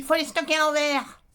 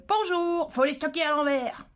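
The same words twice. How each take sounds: First: A curt, loud, higher command with no greeting; curt blunt order. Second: Sung-out high "Bonjour" then the tip, voice put on; greeting first. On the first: Retold or imitated. Quoting a viewer who gave advice without hello, curt blunt order. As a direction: bark the order like someone who never says hello. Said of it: "Pourquoi je le dis sur ce ton-là?". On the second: Shown as a demonstration. Showing viewers the polite version, bright greeting then advice. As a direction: show how the tip sounds with a hello first. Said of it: "Donc, euh".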